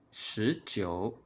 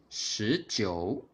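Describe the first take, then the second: No difference in how they are said.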